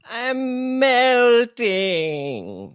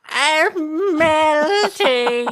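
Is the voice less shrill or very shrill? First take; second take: less shrill; very shrill. First: A witch voice, only moderately shrill. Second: A witch voice, pitched higher and shriller.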